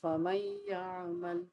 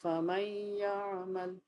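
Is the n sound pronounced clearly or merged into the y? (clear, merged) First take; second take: merged; merged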